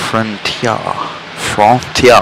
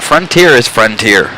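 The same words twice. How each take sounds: First: "Frontier" as French-style "fron-tyah"; mock French accent. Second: Said in the usual way. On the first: Shown as a demonstration. Teasing a chat viewer's question, "Frontier" in mock French. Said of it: "a French accent on frontier". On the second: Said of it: "But frontier is frontier".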